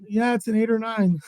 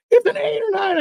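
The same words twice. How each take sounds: First: Agree, breaking into a laugh; laughing concession. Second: High, excited mock shout; thrilled imitation. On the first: Retold or imitated. Storyteller confirms the partner's big catch, laughing. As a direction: give in with a laugh at the end. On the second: Partner guesses his second fish's weight, thrilled.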